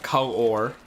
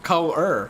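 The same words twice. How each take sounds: First: The last syllable is said with an 'or' sound. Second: The last syllable is said with an 'er' sound. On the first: The speaker calls it wrong. "Not color" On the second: The speaker calls it right. "C O L E R ... that's how most people pronounce it"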